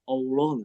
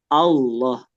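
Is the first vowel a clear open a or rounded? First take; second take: rounded; clear. First: The first vowel is rounded with pushed-out lips. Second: The first vowel is a clear open a. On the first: The speaker calls it wrong. "udah monyong duluan ya" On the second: The speaker calls it right. "ya hamzahnya jelas"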